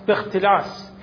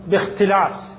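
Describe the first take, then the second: Both takes have the same delivery.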